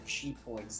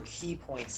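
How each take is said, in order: First: The first word sounds like 'chee'. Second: The first word sounds like 'key'. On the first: The speaker calls it wrong. "not your chi points. That's not how you say it" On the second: The speaker calls it right. "Use your key points"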